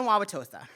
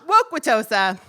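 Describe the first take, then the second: First: Said in the usual way. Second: Waukwatosa said louder with a sneaky k sound; punning town name. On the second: Shown as a demonstration. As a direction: twist Wauwatosa into Waukwatosa. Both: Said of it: "also known as".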